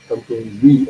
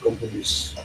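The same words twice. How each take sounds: First: The final s sound is silent. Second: The final s sound is pronounced. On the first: The speaker calls it right. "S sound is silent here. Compromise only" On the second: The speaker calls it wrong. "not compromise"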